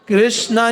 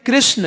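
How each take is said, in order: First: The word ends with a long 'aa' vowel. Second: The word ends without a long 'aa' vowel. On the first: The speaker calls it wrong. "हरे कृष्णा नहीं है" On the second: The speaker calls it right. "कृष्ण ये"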